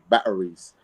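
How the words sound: It is said in a British accent.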